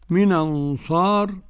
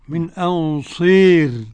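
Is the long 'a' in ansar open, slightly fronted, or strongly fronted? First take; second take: open; strongly fronted. First: The long vowel stays a fully open 'a'. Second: The long vowel leans strongly toward 'e'. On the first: "والبكون من أنصار" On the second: "إمالة الكبرى"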